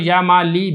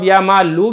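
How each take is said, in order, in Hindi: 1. नाम का अंत छोटे इ स्वर से होता है। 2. नाम का अंत छोटे उ स्वर से होता है। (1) "तरखीम से पहले जो इस्लाम पर कसरा था वो भी पढ़ के" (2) "जमा पढ़ दे आखिर में"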